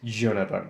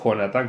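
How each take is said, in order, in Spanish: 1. Se pronuncia con pronunciación del inglés americano. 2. Se pronuncia con pronunciación española.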